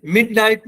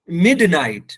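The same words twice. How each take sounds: First: "मिडनाइट" with the D unreleased, like "mit-night"; wrong swallowed D. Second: "मिडनाइट" with the D released before N; bouncing D. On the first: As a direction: run the D of "मिडनाइट" straight into N. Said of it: "इसे मिडनाइट नहीं". ("मिडनाइट" में डी बिना कलकला) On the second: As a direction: bounce the D in "मिडनाइट", "mid-night". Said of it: "यहाँ पर भी वही apply कर दें". ("मिडनाइट" में डी पर कलकला) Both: Shown as a demonstration.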